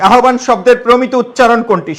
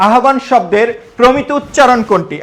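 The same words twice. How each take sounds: The two takes are said the same way.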